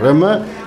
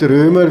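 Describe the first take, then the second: First: The vowel before the M is short. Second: The vowel before the M is long. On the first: This is how the name is actually spelled and said. The speaker calls it right. "mit zwei M geschrieben, also Römer" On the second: This is how some people say the name. The speaker calls it wrong. "nicht Römer, wie manche sagen"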